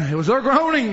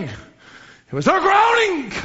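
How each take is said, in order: First: Said in the usual way. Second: It was their groaning, stretched slow with groaning held long; drawn-out emphasis. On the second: Shown as a demonstration. Preacher repeating the line slowly so groaning sinks in. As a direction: linger on groaning as if weighing it. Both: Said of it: "repeated for emphasis".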